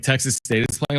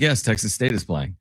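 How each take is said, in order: First: PLAYING lifted in a questioning rise; retold question, voice rising at the end on PLAYING; questioning echo. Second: YES stressed, then PLAYING without a questioning rise; retold answer, YES first and no lift on PLAYING; confirming answer. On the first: Wife's questioning echo of his request. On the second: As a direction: confirm it as a statement, leaning on YES. His answer confirming to his wife.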